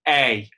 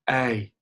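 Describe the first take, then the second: First: The vowel is firmer and placed further forward. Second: The vowel is soft and placed far back. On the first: The speaker calls it right. "but more a" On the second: The speaker calls it wrong. "not a, a, in a really soft kind of back position"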